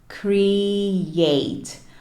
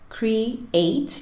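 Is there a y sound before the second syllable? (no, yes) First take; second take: yes; no. First: The second syllable starts with a y sound. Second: The second syllable starts directly with a vowel. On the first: The speaker calls it right. "é como se a segunda sílaba começasse com o som do Y" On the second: The speaker calls it wrong. "que é o que a gente tende a fazer"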